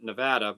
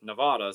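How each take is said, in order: First: Nevada the "correct" way, short vowel; short "vad" in Nevada. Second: Nevada the teachers' way, Ne-VAH-da; broad "vah" in Nevada. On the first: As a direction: middle a of Nevada as in "cat". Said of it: "I've started pronouncing it Nevada". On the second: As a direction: open the middle a of Nevada to "ah". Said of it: "my teachers always pronounced it Nevada". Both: Shown as a demonstration.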